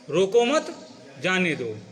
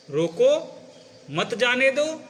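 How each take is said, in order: First: रोको मत joined, then जाने दो; slow, break between मत and जाने दो; group रोको with मत, stop, let जाने दो fall; pause after मत. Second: रोको rising alone, then मत जाने दो together; lifted रोको, break, मत जाने दो as one phrase; pause after रोको. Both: Shown as a demonstration. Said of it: "केवल आपके बोलने की शैली से".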